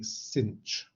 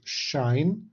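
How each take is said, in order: First: It is said with an 's' sound, ending in 'inch'. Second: It is said with a 'sh' sound, rhyming with 'line'. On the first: "Some people like to say cinch" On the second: "The way I prefer is to pronounce this as shine"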